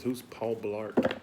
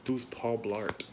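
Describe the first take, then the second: First: "Who's Paul Blart?" very slow, stretched word by word; drawn out. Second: Said in the usual way. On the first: Shown as a demonstration.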